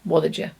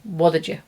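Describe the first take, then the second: No difference in how they are said.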